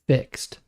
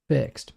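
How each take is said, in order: Both takes have the same delivery.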